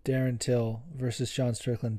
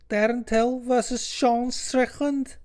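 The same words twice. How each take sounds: First: Said in the usual way. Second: Put-on very high, slow Scouse accent; mock Scouse, stretched out and high. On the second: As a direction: put on an exaggerated squeaky Scouse voice. Name repeated in put-on Scouse accent.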